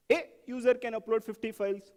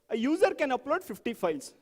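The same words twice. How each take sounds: First: "A" said as "ay", set apart before the rest; stress on A. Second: Said in the usual way. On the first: Shown as a demonstration. Teacher questioning a requirement word by word, "A" stressed. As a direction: hit "A" alone, then carry on. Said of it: "What do you mean?". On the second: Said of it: "let's do that for the".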